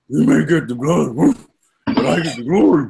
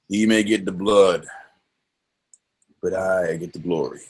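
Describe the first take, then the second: First: It is said in a dog-like voice. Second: It is said in a grizzled Quint voice.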